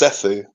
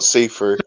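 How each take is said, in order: First: The name is said as 'Sethu'. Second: The name is said like 'see-through'. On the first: The speaker calls it right. "It's Sethu" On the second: The speaker calls it wrong. "not see-through"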